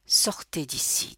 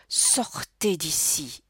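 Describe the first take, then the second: First: Slow, level command; controlled, even-toned dismissal. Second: Slow, drawn-out yell; narrated shout, only moderately loud. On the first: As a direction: order them out without any rise of feeling. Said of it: "d'une voix unie". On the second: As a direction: order them out, stretching the words. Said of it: "hurla Maurice". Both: A narrator's reading.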